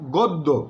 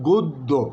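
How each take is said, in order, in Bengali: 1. প্রথম স্বরধ্বনিটি খোলা 'aw' ধ্বনি। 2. প্রথম স্বরধ্বনিটি বদ্ধ 'oh' ধ্বনি। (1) "লিখছি আমরা গদ্য" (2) "সঠিক উচ্চারণ হচ্ছে গদ্য"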